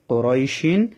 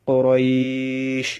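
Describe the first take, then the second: First: The 'ay' is short, with a final -in ending. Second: The 'ay' is held long, ending on sh. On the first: The word is read on without stopping. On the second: The reader stops on this word.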